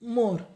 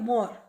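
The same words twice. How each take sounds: First: The o vowel is close, lips nearly together. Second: The o vowel is open, lips wider apart. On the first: It means the peacock bird. "સમૃદ્ધ પક્ષી આપણે બોલીએ તો મોર" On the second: It means the mango blossom. "આંબાનું જે ફૂલ આવે આંબાને એને આપણે કહીએ મોર"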